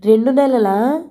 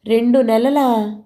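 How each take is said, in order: First: రెండు నెలలా asked higher, rising at the end; shocked repeat. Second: Slow, dropping disbelief in రెండు నెలలా; slow falling రెండు నెలలా, shocked under the breath; stunned question. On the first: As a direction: stress రెండు and let the question climb in disbelief. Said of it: "అన్నాను మళ్ళా". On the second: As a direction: drag out నెలలా and let it fall in dismay. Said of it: "కళ్ళు వెడల్పు చేసి". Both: A narrator's reading.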